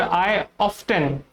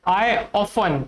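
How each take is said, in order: First: "often" as OFF-ten, T heard; sounded T. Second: "often" as OFF-un, no T; silent T. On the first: Teacher shows the other option, T sounded. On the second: Teacher shows example sentence, T silent. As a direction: drop the T in "often". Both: Shown as a demonstration. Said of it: "आप इसको often भी बोल सकते हो".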